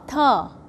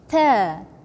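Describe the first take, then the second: First: The consonant is released hard and strong. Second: The consonant is released softly. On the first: The speaker calls it wrong. "This sound is not correct" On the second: The speaker calls it right. "you pronounce it soft"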